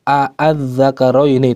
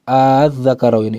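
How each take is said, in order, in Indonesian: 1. Pembukaannya dua vokal pendek yang terpisah. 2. Pembukaannya satu vokal yang sangat panjang. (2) "dipanjangkan menjadi enam harokat"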